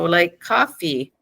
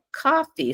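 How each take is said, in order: First: Said in the usual way. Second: "coffee" said much higher with a falling end; name the object brightly; high, falling "coffee" as a label; emphasized label. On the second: Shown as a demonstration. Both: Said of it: "show them the item".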